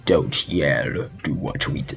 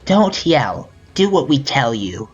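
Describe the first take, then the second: First: Low, soft menacing character voice; trial character voice. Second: Put-on higher-pitched childlike captor; Kagari child voice. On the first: Player auditioning an alternative voice for Kagari, low and hushed. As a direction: drop it deep and quiet for a captor. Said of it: "Or should I be like". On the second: Player auditioning Kagari's child voice for a threat, high childlike. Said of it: "child voice I gave her before?". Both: Shown as a demonstration.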